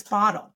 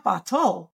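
First: Said in the usual way. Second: "bottle" as bah-TOLL, slowly, hard t; misplaced stress. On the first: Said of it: "it's bottle". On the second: Shown as a demonstration. Therapist correcting a child's error, second syllable stressed in "bottle". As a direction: lean on the end of "bottle" with a full o. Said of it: "It's not bottle".

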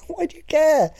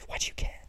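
First: Much higher, laughing squeak; squeaky mock. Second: Whispered. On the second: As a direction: whisper the question. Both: Real, not acted.

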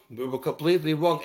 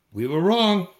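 First: Said in the usual way. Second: Wrong said louder, hit hard; wrong punched loud, then falling; stressed. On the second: Real, not acted. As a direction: lean on wrong to admit it.

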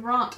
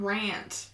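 First: "rant" with a long AH, like "rahnt"; posh-English "rant", rhyming with "want"; broad-A pronunciation. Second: "rant" with the short A of "cat"; "rant" rhyming with "ant"; short-A pronunciation. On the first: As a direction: say "rant" with the open vowel of "father". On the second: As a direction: say "rant" with a front, flat-A vowel. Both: Shown as a demonstration. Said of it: "I said rant instead of rant".

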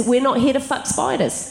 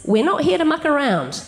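First: "here" stressed with a falling tune. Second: "here" stressed with a falling tune in the plain meaning. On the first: Quoting a favourite Australian phrase, stress on "here". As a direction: lean on "here", then drop. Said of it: "my favourite Australian phrase is". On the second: Explaining the phrase to listeners, stress on "here". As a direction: lean on "here", then let it fall. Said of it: "what it means is". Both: Retold or imitated.

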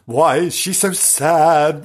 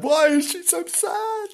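First: Said in the usual way. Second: A playful high ghostly taunt; high teasing ghost-story voice; high mock spooky voice. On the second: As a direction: ask it again way up high, teasingly. Repeated in high put-on voice.

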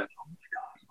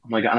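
First: Awed little whisper. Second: Said in the usual way. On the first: Retold or imitated. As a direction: breathe it out in stunned awe. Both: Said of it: "and I was just like".

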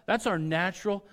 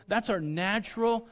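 Both takes have the same delivery.

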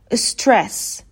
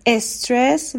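First: استرس starting straight on the s, no e before it; correct English pronunciation. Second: استرس with an e before the s, "es-tres"; Persian learners' mispronunciation. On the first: Shown as a demonstration. Teacher gives next example, correct English s-onset. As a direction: say استرس as English stress, s first. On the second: Retold or imitated. Teacher imitates how most Iranians say stress, added leading e. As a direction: add a short e to the front of استرس.

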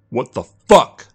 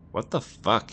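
First: Loud, drawn-out furious outburst; spat in anger. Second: Lightly voiced bewildered child, higher; child's voice. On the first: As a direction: spit it out loudly, higher and slow. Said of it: "Jack spat into the phone". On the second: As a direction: say it small and high, as a child. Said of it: "was that of a child". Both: A narrator's reading.

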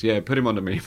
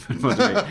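First: Said in the usual way. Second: Laughing. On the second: Retold or imitated. Martin goes.

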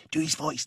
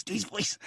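First: Said in the usual way. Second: A quieter, slightly higher do his voice; hushed urging. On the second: Retold or imitated. Colleague egging him on quietly while the clip plays, hushed. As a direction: egg him on under your breath. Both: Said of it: "she was going across the seat going".

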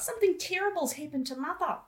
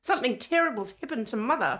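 First: High, laughing Australian line; mock Australian accent with a laugh; hammed-up Australian accent. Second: Put-on Australian accent. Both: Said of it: "doing an Australian accent".

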